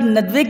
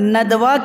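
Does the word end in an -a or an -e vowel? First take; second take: e; a. First: The word ends in an -e vowel. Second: The word ends in an -a vowel. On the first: The speaker calls it right. "Urdu ज़ुबान में इमाला होता है" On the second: The speaker calls it wrong. "ये गलत है"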